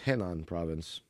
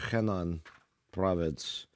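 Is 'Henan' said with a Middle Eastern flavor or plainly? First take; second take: plain; Middle Eastern. First: Henan is said plainly, without that flavor. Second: Henan is said with a Middle Eastern-sounding flavor. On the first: The speaker calls it right. "when it's Henan province" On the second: The speaker calls it wrong. "I added a little Middle Eastern flair"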